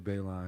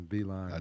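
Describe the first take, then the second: First: The first syllable sounds like 'bay'. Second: The first syllable sounds like 'bee'. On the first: The speaker calls it wrong. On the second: The speaker calls it right.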